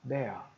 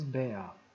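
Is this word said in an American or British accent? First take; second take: British; British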